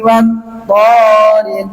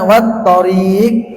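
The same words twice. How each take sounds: First: The vowel of the first syllable is long. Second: The vowel of the second syllable is long. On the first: The word names the night visitor, not a road. The speaker calls it right. "Tetapi ini yang dipanjangkan adalah toknya" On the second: The word means road. The speaker calls it wrong. "Jangan dibaca wat-thariq. ... At-thariq roknya dipanjangkan dengan ya sukun"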